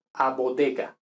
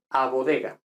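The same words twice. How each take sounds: First: Bodega with hard d and g; Italian style. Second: Bodega with soft d and g; Spanish style. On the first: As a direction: hit the d and g of bodega firmly. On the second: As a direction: soften the d and g in bodega. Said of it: "Español". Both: Shown as a demonstration.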